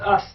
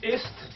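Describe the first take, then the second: First: The word begins with an 'a' vowel. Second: The word begins with an 'i' vowel. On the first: The speaker calls it right. "The pronunciation of this is ast" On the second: The speaker calls it wrong. "if you pronounce it like this"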